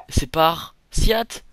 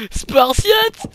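First: Fort, lent, mots détachés; découpe chaque morceau pour préparer la blague; jeu de mots annoncé. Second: Hurlement très aigu et très fort; cri de guerre parodique. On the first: Jeu de mots avant le cri. (calembour lancé fort et lentement) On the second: (hurlement guerrier pour rire) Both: Pretend.

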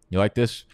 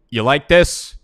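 First: Said in the usual way. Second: Higher, louder gloating question; loud gloating jab at his draft rival; loud taunt. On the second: Real, not acted. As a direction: rub it in his face loudly. Taunting opponent after a pick.

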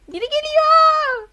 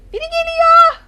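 First: Slow, high, loud wail; drawn-out frightened wail. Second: Loud high yell of alarm; panicked yell. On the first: Gamer warns again as the chaser nears, drawn-out wail. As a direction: stretch the warning out in dread. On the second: Gamer warns teammates someone is coming, panicked yell. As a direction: warn everyone, terrified. Chased in horror game. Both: Real, not acted.

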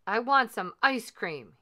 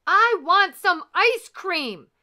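First: Said in the usual way. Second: High, very loud, slow yell; demanding shout. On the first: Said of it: "he said". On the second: A narrator's reading. Lord Gur orders the silent grinder, shouting. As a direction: bellow each word high and stretched out. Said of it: "he shouted".

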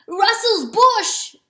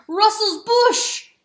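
First: Slow, high, loud roar; first roar. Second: Slow, high, loud roar stressing bush. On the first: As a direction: bellow the name, drawn out slowly. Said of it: "Oh, whoops". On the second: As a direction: roar it at the weasel while running. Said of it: "he roared to the weasel". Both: Acted.

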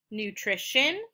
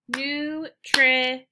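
First: Said in the usual way. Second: "nutrition" in three slow, separated beats; syllable by syllable. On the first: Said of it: "finding out how many syllables". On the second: Shown as a demonstration. Teacher clapping three syllables, "nutrition" slowly split up. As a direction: split "nutrition" as nu, tri, shun. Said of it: "three syllables because I clapped three".

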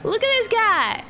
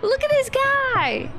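First: High, loud gleeful exclaim; delighted shout. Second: Even higher, shrieked repeat; squealing delight. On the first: Gamer shows off her new dino, loud and high. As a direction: shriek with joy at the new figure. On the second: Gamer squeals again at her dino, higher still. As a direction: squeal it the second time. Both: Real, not acted.

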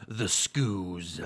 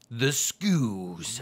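First: Lightly voiced announcer; low dramatic announcer read. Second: A hint of an announcer. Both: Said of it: "My announcer voice".

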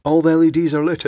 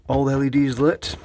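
First: Higher, louder, pleased exclamation; excited. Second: Said in the usual way. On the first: Real, not acted. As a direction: announce it with delight. Lamp works again, delighted.

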